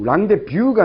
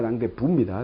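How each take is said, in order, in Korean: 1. 마지막 음절은 'byu'로 발음돼요. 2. 마지막 음절은 'bu'로 발음돼요. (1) "랑데뷰가 아니라"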